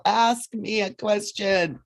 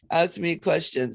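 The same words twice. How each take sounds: First: Slow, urging Ask me a question; drawn-out insistent Ask; coaxing Archangel Michael. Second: Said in the usual way. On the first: Retold or imitated. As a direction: ask slowly and lean on ask. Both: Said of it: "He's like".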